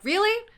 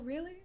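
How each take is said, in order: First: It sounds sharp and openly annoyed. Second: It sounds soft and mildly polite. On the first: The irritation is shown openly. "I didn't sound like that" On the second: The irritation is hidden behind politeness. "I was like"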